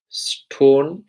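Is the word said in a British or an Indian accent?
Indian. It is said with an Indian accent. The speaker calls it wrong. "Stone in the Indian accent"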